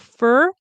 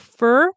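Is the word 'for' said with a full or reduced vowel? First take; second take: reduced; reduced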